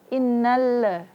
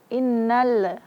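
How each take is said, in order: No difference in how they are said.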